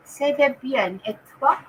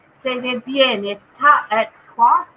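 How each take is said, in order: First: "Ça va bien et toi" said smoothly, "toi" as /twa/ with a rising end; corrected French. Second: "Ça va bien et ta" with "ta" slipping out before the fix to "toi"; fumbled French. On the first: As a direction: say the French line cleanly this time, rising at "toi". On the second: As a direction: stumble on the last word of the French, then correct it. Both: Shown as a demonstration. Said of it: "Can I do French or what?".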